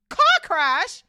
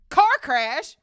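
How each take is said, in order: First: High, very loud outraged roar. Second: Loud, raised-pitch outraged bellow; Hagrid's roar. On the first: Hagrid hearing the car crash lie, roaring. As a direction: bellow it in disbelief. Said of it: "roared, that ain't even Hagrid's accent". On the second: Hagrid jumping up angrily at the lie, roaring. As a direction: roar the question out. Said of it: "roared Hagrid". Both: A narrator's reading.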